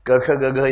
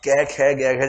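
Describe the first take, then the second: First: Each letter ends in a short 'a' vowel. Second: The letters end in 'ai' and 'e' vowels.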